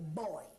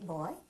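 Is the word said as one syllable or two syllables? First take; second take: two syllables; one syllable. First: The word is drawn out into two syllables. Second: The word is said as one short syllable. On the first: "it's a two-syllable word" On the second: "you don't say boy"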